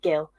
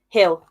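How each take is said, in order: First: The name begins with a hard G sound. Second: The name begins with a breathy H sound. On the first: The speaker calls it wrong. "like a common English person and just pronounce it Gil" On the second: The speaker calls it right. "It's pronounced Hill"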